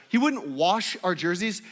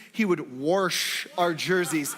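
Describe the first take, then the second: First: "wash" with no R; standard pronunciation. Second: "wash" with an added R, "worsh", drawn out; coach's pronunciation. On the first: Shown as a demonstration. Correcting the basketball coach's word, "wash" without an R. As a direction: say "wash" cleanly as "wahsh". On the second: Retold or imitated. Imitating the basketball coach, slow "worsh" with an R. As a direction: stretch "wash" slowly into "warsh". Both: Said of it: "There's no R in wash".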